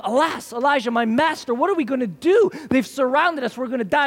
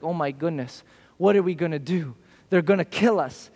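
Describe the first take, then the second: First: A frightened servant crying out to his master; panicked servant. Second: Hushed, lower half-panicked muttering; a servant's worried aside, said low; mock freak-out. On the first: Retold or imitated. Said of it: "And his servant said to him". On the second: Servant frets over the enemy, low and hushed. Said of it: "Elijah's servant freaks out".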